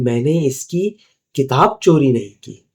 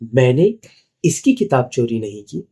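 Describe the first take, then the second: First: The stress falls on the word किताब. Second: The stress falls on the word इसकी. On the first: Something other than the book was stolen. "मतलब मैंने कोई दूसरी चीज़ चोरी की है।" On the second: A book was stolen, but not this person's. "मतलब मैंने किताब तो चोरी की लेकिन इसकी नहीं की है।"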